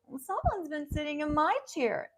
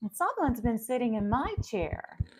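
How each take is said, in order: First: It is said in a small, crying child's voice. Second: It is said in a calm adult character voice. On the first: "And Baby Bear. ... He's crying tears in this too" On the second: "Mama Bear"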